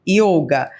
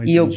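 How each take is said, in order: First: The word ends with a final vowel sound. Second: The word ends on a consonant, without the vowel. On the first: This is how it is said in Brazil. "aberto, então a gente fala yoga" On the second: This is how it is said in India. "lá na Índia nem yoga eles falam, eles falam assim"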